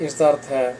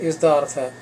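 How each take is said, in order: The two takes are said the same way.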